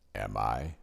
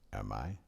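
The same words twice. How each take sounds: First: It is said in a deeper voice. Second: It is said in a normal voice.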